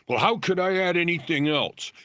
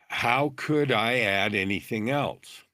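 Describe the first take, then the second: First: The question is asked quickly. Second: The question is asked slowly.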